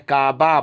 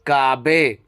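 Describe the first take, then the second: First: The word ends with an 'a' vowel. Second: The word ends with an 'e' vowel. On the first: This is how it is said in Urdu. "जैसे काबा बोलते हैं उर्दू में" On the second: This is how it is said in Persian. "लेकिन फारसी में उसको हे पढ़ते हैं"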